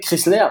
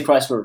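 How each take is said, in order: First: Chrysler said the French way; French pronunciation. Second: Chrysler said the English way; English pronunciation. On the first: Boss quoting the newcomer's wrong form, French pronunciation. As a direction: say Chrysler as French "kris-lair". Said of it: "Je te le dis pour toute la vie". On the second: Boss correcting the newcomer for life, English pronunciation. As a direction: say Chrysler as English "Cry-sler". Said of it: "là, au Québec". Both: Retold or imitated.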